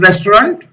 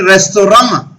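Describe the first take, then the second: First: It is said with an English pronunciation. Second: It is said with a French pronunciation. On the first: "I'm using the word restaurant" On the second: "in actual French word restaurant"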